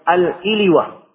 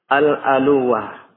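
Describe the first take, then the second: First: The first vowel after al- is i. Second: The first vowel after al- is a. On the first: "Di kasrah hamzanya dan di takhfif wawnya" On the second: "bifathil hamzah berarti al-aluwah"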